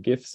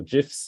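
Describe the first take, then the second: First: "gifs" with a hard G, as in "gift"; "gifs" opening on the G of "go"; hard-G pronunciation. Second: "gifs" opening on the G of "gem". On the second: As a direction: say "gifs" starting with a J sound. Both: Shown as a demonstration. However you wanna pronounce it.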